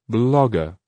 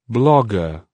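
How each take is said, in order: No difference in how they are said.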